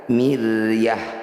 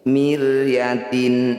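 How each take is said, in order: First: The word ends with an h sound. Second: The word ends with a tin sound. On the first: The reading stops at this word. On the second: The reading carries on without stopping.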